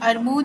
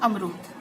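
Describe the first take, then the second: First: The 'r' sound comes before the 'm'. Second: The 'm' sound comes before the 'r'. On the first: The speaker calls it wrong. "ये अरमूद है, बोल" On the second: The speaker calls it right. "सही उच्चारण होता है अमरूद"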